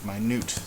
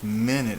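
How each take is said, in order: First: The stress is on the last syllable. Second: The stress is on the first syllable. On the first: "it sounds like minute" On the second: "it doesn't sound like minute"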